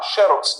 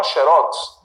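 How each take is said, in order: First: "xerox" stressed on the first syllable, XÉ-rox; paroxytone stress. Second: "xerox" stressed on the last syllable, xe-RÓX; oxytone stress. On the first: Teacher as customer offering the alternative, xerox with first-syllable stress. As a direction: put the weight on the start of "xerox". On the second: Teacher as customer asking for a copy, xerox with final stress. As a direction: put the weight on the end of "xerox". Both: Shown as a demonstration. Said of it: "ambas as palavras estão corretíssimas".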